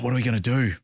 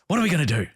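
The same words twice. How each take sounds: First: It sounds hopeless and defeated. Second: It sounds open and genuinely curious. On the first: The situation feels hopeless. The speaker calls it wrong. "curious language on its own can still be self-defeating" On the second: The speaker is open to exploring options. The speaker calls it right. "completely different tonality"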